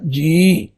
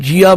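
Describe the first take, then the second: First: The word ends on a plain 'ee' vowel. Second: The word ends with an added 'aa' vowel. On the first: The speaker calls it right. "ਇਹਦੇ ਉਚਾਰਨ ਦਾ ਤਰੀਕਾ ਇਹੋ ਹੀ ਅਪਣਾਉਣਾ ਚਾਹੀਦਾ ਹੈ" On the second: The speaker calls it wrong. "ਇਹਨੂੰ ਜੀਆ ਬੋਲ ਦਿੰਦੇ ਨੇ। ਇਹ ਜੀਆ ਨਹੀਂ ਹੈ।"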